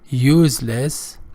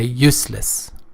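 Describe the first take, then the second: First: The middle consonant is not an s sound. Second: The middle consonant is a clear s sound. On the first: The speaker calls it wrong. "Don't pronounce it useless, which is another common mispronunciation" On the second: The speaker calls it right. "Say useless with the C sound"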